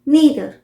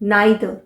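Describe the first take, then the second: First: It is said with an American English accent. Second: It is said with a British English accent. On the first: "American pronunciation हुआ" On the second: "British pronunciation हुआ"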